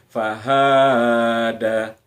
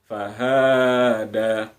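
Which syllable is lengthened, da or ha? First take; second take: ha; ha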